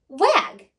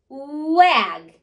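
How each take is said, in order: First: The word is said quickly. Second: The word is stretched out slowly. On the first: "Now say it in a snap" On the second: "Blend with me"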